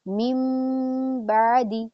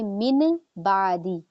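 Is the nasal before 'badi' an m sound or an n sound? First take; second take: m sound; n sound. First: The first word ends with a nasal m sound. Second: The first word ends with a plain n sound. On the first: The speaker calls it right. "नून की आवाज को मीम में चेंज करना" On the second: The speaker calls it wrong. "ऐसे नहीं पढ़ेंगे मिन बादी"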